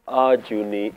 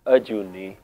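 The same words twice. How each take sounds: First: "Ajuni" said with a long open "aa" first; wrong long first vowel. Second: "Ajuni" with a brief "uh" at the start; correct short first vowel. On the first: Teacher warning against an extra kanna, long "aa" opening "Ajuni". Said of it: "so we don't pronounce it". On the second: Teacher correcting learners' pronunciation, short unstressed first vowel in "Ajuni". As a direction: open "Ajuni" lightly, as "uh-JOO-nee". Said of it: "so we don't pronounce it Ajuni". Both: Shown as a demonstration.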